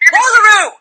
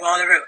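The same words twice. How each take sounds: First: It is said loudly and forcefully, like a demand. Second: It is said casually, with no urgency. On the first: The speaker demands the listener's attention. "with a demand in your voice" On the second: The speaker does not care whether anyone hears. "Like you didn't give a shit that anybody heard"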